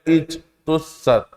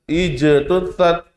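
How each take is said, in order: First: The j is closed off without any echoing bounce. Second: The j is released with a clear echoing bounce. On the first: The speaker calls it wrong. "nggak boleh" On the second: The speaker calls it right. "harus dibaca apa? Jelas"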